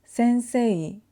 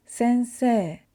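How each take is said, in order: First: "sensei" with a clear e-i glide at the end; the textbook-spelling version; spelled-out sensei. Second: "sensei" ending in a long e, no i glide. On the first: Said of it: "instead of saying". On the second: Teacher showing students the natural way, long e. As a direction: say it as sen-see-eh, slow and smooth. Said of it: "we say sensei". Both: Shown as a demonstration.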